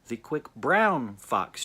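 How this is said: The word 'brown' is stressed. "And then brown"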